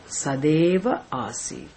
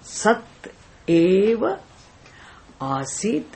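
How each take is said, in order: First: The words join with a d sound. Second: The words stay separate with a t sound.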